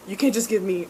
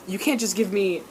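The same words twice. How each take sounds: The two takes are said the same way.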